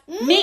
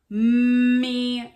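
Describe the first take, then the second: First: The sounds are blended into one short word. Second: The sounds are drawn out slowly and separately. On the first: "Say it fast" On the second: "stretched out sounds"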